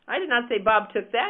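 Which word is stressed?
that. The stress is on "that".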